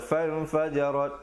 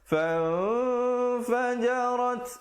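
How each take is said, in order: First: The nasal n sound is cut short. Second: The nasal n sound is held for two counts. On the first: The speaker calls it wrong. "Jangan baca fan fajarat, salah" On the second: The speaker calls it right. "Fan dua harakat"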